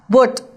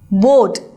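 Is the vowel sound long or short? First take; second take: short; long. First: The vowel is cut short. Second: The vowel is drawn out long. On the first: The speaker calls it wrong. "not boat" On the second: The speaker calls it right. "this O, E and A is prolonged sound"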